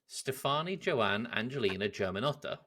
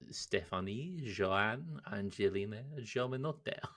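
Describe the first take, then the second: First: It is said in the speaker's normal accent. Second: It is said in a put-on foreign accent. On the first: "Say that all again" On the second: "Now say it in an Italian accent"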